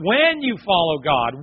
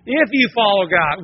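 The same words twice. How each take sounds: First: "when" drawn out slowly and raised, as a certainty; stress on when. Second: "If" hit louder and higher, as a condition; stress on If. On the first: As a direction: stretch and lift the word "when". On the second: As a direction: lean on the opening "If". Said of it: "Not an if, when". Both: Shown as a demonstration.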